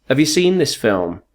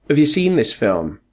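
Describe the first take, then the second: No difference in how they are said.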